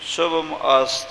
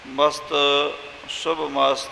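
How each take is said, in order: First: It is split as 'shubham ast'. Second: It is split as 'mast shubh mast'. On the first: "ਸ਼ੁੱਧ ਉਚਾਰਨ ਪੁਰਾਤਨ ਸਮੇਂ ਸ਼ੁਭਮ ਅਸਤ ਇਸ ਤਰ੍ਹਾਂ ਕਰਦੇ" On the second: "ਜੋ ਮਸਤ ਸ਼ੁਭ ਮਸਤ ਇਹ ਪਾਠ ਕਰਦੇ ਹਾਂ"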